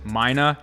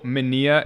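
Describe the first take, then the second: First: The name is said as Mina. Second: The name is said as Minia. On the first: This is how the company itself says it. "they pronounce it Mina" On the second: This is the speaker's own habitual way of saying it. "I've always called the tool Minia"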